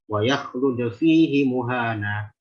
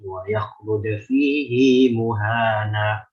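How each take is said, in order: First: The vowel at the end of fihi stays short. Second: The vowel at the end of fihi is lengthened. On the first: The speaker calls it wrong. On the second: The speaker calls it right. "Tapi dibaca silah"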